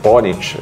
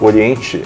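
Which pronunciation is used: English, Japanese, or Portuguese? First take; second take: English; Portuguese. First: The name is said the English way. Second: The name is said the Portuguese way. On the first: "é a pronúncia na língua inglesa internacional" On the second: "é a pronúncia em português"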